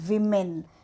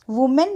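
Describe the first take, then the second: First: The first vowel sounds like short 'i'. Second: The first vowel sounds like 'oo'. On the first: The speaker calls it right. "तर विमेन" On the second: The speaker calls it wrong. "वुमेन नाही"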